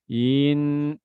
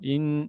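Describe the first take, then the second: First: The vowel is stretched out long. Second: The vowel is kept short. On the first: The speaker calls it wrong. "jangan sampai kita baca in innal" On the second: The speaker calls it right. "in langsung in"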